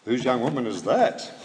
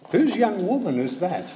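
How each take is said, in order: First: "that" lifted at the end with a rising tune; "Whose" kept level, rising on "that"; stress on THAT. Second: "Whose" hit high and hard, then falling; "Whose" pitched up and punched; stress on WHOSE. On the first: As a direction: land on "that" and let it rise. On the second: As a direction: lean right into "Whose" as if asking who owns her. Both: Shown as a demonstration. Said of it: "play around with where he put the emphasis".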